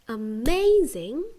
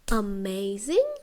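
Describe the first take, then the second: First: The stress is on the second syllable. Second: The stress is on the first syllable. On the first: The speaker calls it right. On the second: The speaker calls it wrong.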